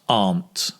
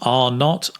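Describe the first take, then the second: First: It is said as one contracted word. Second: It is said as two full words.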